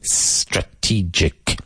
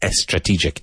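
First: The word starts directly with the S. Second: An extra vowel sound comes before the S. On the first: The speaker calls it right. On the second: The speaker calls it wrong.

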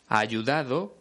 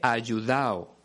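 First: The d between the last vowels is pronounced. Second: The d between the last vowels is dropped.

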